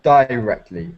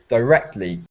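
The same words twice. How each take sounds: First: The stress is on the first syllable. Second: The stress is on the second syllable. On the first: The speaker calls it wrong. "not directly" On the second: The speaker calls it right. "don't put the emphasis on the die, but on the rectly"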